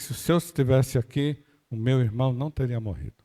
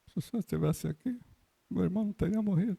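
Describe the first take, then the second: First: The voice sounds firm and convinced. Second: The voice sounds sad and sorrowful. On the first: The speaker firmly believes it would not have happened. "Convicção" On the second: The speaker is grieving the loss.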